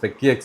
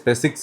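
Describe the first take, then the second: First: The name ends with a separate 'ex' sound. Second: The name ends with a 'six' sound. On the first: The speaker calls it wrong. "എന്നല്ല" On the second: The speaker calls it right. "ഇവരുടെ പേര് സ്പെസിക്സ് എന്നാണ്"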